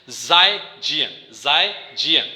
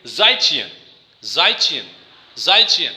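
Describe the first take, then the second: First: "زائے جین" slowly, second word with voiced j; combined reading. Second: "زائے چین" with ch in the second word, falling; Chinese pronunciation. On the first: Teacher joining two words for students, slow "زائے جین" with voiced j. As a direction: slowly join "زائے جین" as zai jian. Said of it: "دونوں word کو جب ہم ملا لیتے ہیں". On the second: Teacher drilling students, Chinese pronunciation "زائے چین" with ch. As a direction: say "زائے چین" as zai chi-yen, ending on a fall. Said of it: "Chinese pronunciation کیسی ہوتی ہے". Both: Shown as a demonstration.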